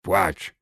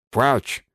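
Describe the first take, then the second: First: Goblin barking płać; płać snapped as a demand. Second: Płać pitched high and louder; shrill repeated goblin demand. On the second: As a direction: repeat płać higher, pushier. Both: A narrator's reading. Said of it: "zażądał goblin".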